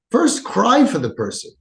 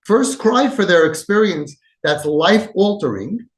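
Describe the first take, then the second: First: Said in the usual way. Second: "cry" pressed hard, said slower; stress on cry. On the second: Shown as a demonstration. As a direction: lean into "cry", stretch the phrase. Repeats the key rule, slower.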